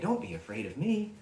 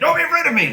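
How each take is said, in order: First: It is said in a gentle, kind tone. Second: It is said in a scary, menacing tone.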